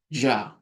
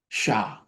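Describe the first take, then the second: First: It begins with an English j sound. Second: It begins with a hushing sh sound. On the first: It reflects how people speak in some places. "it may sound like a J" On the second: It reflects how some people speak. "Some people say with S H sound"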